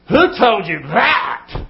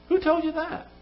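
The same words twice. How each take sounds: First: The pitch falls at the end. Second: The pitch rises at the end. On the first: "Same words. What does it do to you?" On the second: "You hear the tone go up?"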